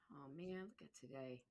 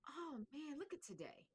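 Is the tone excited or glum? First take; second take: glum; excited. First: It is said in a glum tone. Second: It is said in an excited tone.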